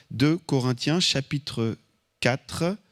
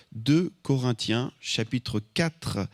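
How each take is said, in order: Both takes have the same delivery.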